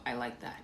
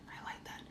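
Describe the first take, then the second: First: Said in the usual way. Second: Whispered under the breath; I like that breathed as a soft whisper. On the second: Real, not acted. Whispering the praise back to a viewer's comment.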